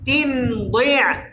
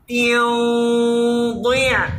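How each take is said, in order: First: The n is a clear sound at the teeth. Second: The n is hidden, heavy and nasal. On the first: "প্রথমে তানবিনকে তানবিনের জায়গা থেকে উচ্চারণ করি" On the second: "তানবিনটাও মোটা হয়ে যাবে"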